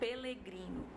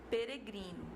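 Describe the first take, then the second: First: The second syllable has an L sound. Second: The second syllable has a flapped R sound. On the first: "tem gente que pronuncia como pelegrino" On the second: "você tem a palavra peregrino"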